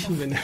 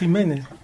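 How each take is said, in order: First: The name is pronounced with French sounds. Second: The name is pronounced with Spanish sounds. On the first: "on va le dire en français. ... Vous allez dire Guy Jiménez" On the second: "Si vous voulez le dire en espagnol, ça va être Jiménez"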